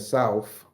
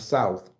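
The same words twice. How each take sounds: First: The word ends with an f sound. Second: The word ends with a th sound. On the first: The speaker calls it right. "with an F" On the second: The speaker calls it wrong. "not with a T H"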